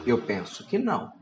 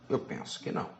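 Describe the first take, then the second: First: Said in the usual way. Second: Whispered repeat, no voice; the same words said again as a soft whispered echo. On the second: Real, not acted. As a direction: breathe it as an aside to yourself. Repeats own answer, then whispers.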